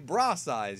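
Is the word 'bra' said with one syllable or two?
one. The word is one syllable, English-style. The speaker calls it right. "we say bra size"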